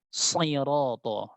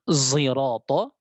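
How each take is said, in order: First: The first consonant is a pure emphatic s. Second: The first consonant is an s blended toward z. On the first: "dengan shad murni" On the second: "dengan zai ismam"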